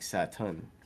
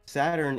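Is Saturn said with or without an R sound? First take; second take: without R; with R. First: It is said without an R sound. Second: It is said with an R sound.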